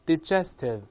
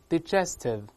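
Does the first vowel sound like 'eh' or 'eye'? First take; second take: eh; eh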